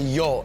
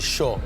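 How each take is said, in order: First: The word begins with a 'y' sound. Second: The word begins with an 'sh' sound. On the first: This is how it is said elsewhere. "they don't say yo" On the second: This is how locals say it. "they say sho"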